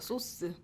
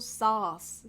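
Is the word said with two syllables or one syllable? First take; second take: two syllables; one syllable. First: It is said in two syllables, like soseu. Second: It is said in one syllable, like sauce. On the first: The speaker calls it wrong. "우리말로는 소스라 그래요" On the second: The speaker calls it right. "사실 발음이 소스가 아니고 sauce 이렇게 발음해 주면 됩니다"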